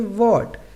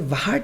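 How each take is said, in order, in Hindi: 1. इस शब्द की शुरुआत सादी w ध्वनि से होती है। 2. इस शब्द की शुरुआत हल्की साँस वाली h ध्वनि से होती है। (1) "इसे हम क्या पढ़ेंगे" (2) "अब यहाँ पे हम इसे व्हाट नहीं पढ़ेंगे"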